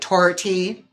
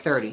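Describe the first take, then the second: First: The th is said as a hard t sound. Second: The th is said as a soft th sound. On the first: "Irish accent's a hard one... saying a lot of things with like T's" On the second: "that's like thirty"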